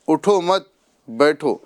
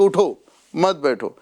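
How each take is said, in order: First: There is a pause after the second word. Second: There is a pause after the first word. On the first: It is an order to sit down. "हमने जुमले को यहाँ मत के ऊपर रोका है ना" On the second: It is an order to stand up. "उठो यहाँ रुक गए, मत बैठो हमने यहाँ से आगे बोला"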